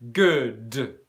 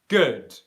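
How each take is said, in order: First: The final d is released with a strong burst. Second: The final d is held without a strong burst. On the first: The speaker calls it wrong. "I do not say good" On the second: The speaker calls it right. "Instead, it's good"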